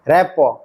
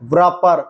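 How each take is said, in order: First: The word starts with an 'r' sound. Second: The word starts with a 'w' sound. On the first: The speaker calls it right. "ये है" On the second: The speaker calls it wrong. "नहीं है"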